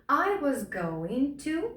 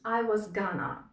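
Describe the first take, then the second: First: Going to is pronounced fully and carefully. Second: Going to is reduced to a quick gonna.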